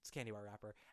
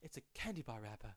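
First: It is said casually, with clear R sounds. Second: It is said earnestly, with the R sounds dropped.

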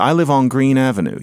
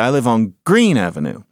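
First: The stress falls on the word Avenue. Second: The stress falls on the word Green. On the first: The speaker calls it right. "You would say" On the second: The speaker calls it wrong. "You would never say"

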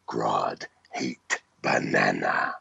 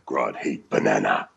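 First: The line is delivered with heavy, menacing force. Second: The line is delivered with moderate force.

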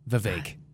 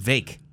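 First: The name is said as two syllables. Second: The name is said as one syllable. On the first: This is the usual way the name is said. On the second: This is how the name sounded in an interview.

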